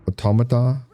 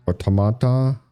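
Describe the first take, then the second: No difference in how they are said.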